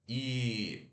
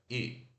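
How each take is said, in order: First: The vowel is long and tense. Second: The vowel is short and lax. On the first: The speaker calls it wrong. "não é I" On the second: The speaker calls it right. "esse I fechado, ele é mais curto"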